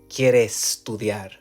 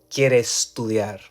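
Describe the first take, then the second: No difference in how they are said.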